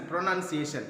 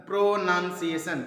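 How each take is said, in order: First: Said in the usual way. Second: "प्रोनाउंसिएशन" in separated chunks; each syllable of "प्रोनाउंसिएशन" given its own beat; broken into syllables. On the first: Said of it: "तो इसको तीन भाग में". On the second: Shown as a demonstration. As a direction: sound out "प्रोनाउंसिएशन" part by part. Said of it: "three syllable में तोड़ दिए".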